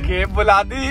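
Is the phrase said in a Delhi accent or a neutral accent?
Delhi. It is said in a Delhi accent.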